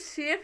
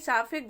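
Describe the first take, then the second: First: An 'ay' vowel and a silent final e. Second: An 'ah' vowel and a final 'e' are sounded. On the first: The speaker calls it right. "ये शेफ लिखा है" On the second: The speaker calls it wrong. "नहीं साफे गलत है"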